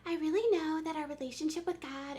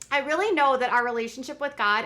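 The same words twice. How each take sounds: First: It is said in a put-on imitating voice. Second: It is read in the speaker's ordinary voice.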